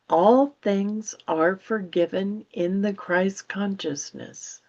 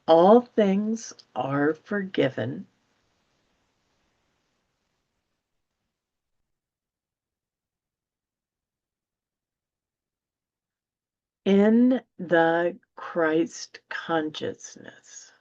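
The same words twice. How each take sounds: First: The sentence is read at a quick pace. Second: The sentence is read at a slow pace. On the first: "I'll read it quickly" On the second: "now I'll read it more slowly"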